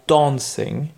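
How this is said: It is spoken with a British accent. "ou les Britanniques"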